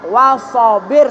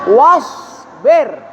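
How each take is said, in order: First: A vowel is inserted between the s and b. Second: The s is held with no vowel before b. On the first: The speaker calls it wrong. "tidak boleh wasabir, salah" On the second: The speaker calls it right. "Ditahan anginnya. Lisanmu terangkat isti'la"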